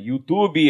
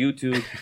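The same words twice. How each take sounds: First: It has an added vowel sound at the end. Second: It ends on the consonant, with no added vowel.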